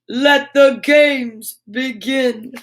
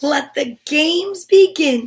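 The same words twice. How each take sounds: First: It is said in a put-on superhero voice. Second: It is read in a plain reading voice.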